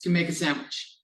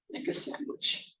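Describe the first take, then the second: First: Said in the usual way. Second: Breathy whisper, playful; whispered repeat. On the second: Shown as a demonstration. Teacher whispering the phrase to the class. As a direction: whisper it to yourself with relish.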